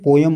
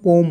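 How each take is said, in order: First: The word is said with two syllables. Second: The word is said with one syllable. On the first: "Indian लँग्वेजमध्ये पोयम म्हणतात" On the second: "British आणि American जर उच्चार घेतला तर याला फक्त पोम म्हणतात"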